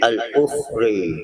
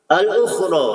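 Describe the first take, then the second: First: The final vowel is tilted toward 'e'. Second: The final vowel is a plain open 'a'.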